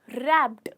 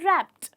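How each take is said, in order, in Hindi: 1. इस शब्द का अंत 'd' ध्वनि से होता है। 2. इस शब्द का अंत 't' ध्वनि से होता है। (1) "ना कि रैप्ड, वो गलत हो जाएगा" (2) "ट ट का साउंड आता है"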